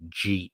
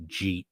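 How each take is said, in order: First: "jeet" clipped into one short syllable; Southern slurred jeet. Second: "jeet" said softly, one syllable with a hard j; spelled-out jeet. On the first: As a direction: squash "did you eat" into "jeet". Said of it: "an entire sentence condensed into a single word". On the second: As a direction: say "jeet" as a single word. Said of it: "J E E T". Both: Shown as a demonstration.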